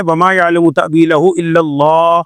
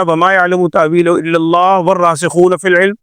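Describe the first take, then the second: First: Slow verse phrase, الله drawn out, then a stop; stop after الله. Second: الله run straight into والراسخون; no pause after الله. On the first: Teacher reciting the verse with its compulsory stop, الله held then halted. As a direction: draw out الله and end the sentence there. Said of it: "یہ آگے الگ جملہ ہے". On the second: Teacher showing the mistaken reading, الله joined to والراسخون without stopping. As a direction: read through الله into والراسخون in one breath. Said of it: "اگر کسی نے پڑھ دیا". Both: Shown as a demonstration.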